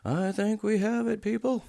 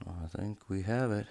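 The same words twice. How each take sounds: First: Much higher and louder, thrilled announcement; triumphant high shout. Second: Hopeful. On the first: Watchmaker celebrating to his viewers, triumphant high shout. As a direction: cry out the success to the viewers. Rotor cover finally fitted. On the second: First take before excited repeat. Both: Real, not acted.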